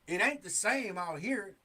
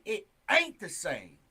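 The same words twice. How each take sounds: First: Said in the usual way. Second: "ain't" punched loud and drawn out; slow it down and hit AIN'T hard; stress on AIN'T. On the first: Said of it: "I say it ain't". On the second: Shown as a demonstration. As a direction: lean heavily on "ain't", louder than the rest. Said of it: "I'm putting emphasis on it".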